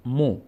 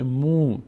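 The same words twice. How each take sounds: First: "مو" as a short mo; brief o in "مو"; short vowel. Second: "مو" as a long moo; long vowel. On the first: Teacher showing mim alone, short "مو" as mo. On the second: Teacher strengthening mim with vav, long "مو" as moo. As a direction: stretch the oo in "مو". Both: Shown as a demonstration.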